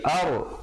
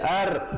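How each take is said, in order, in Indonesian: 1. Bunyi r tebal dan berat. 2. Bunyi r tipis dan ringan. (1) "dibaca tebal" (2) "jangan baca ar"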